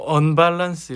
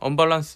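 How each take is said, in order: First: The first syllable carries a strong stress. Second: The syllables are said evenly without stress. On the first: "악센트가앞에있잖아요" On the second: "그냥"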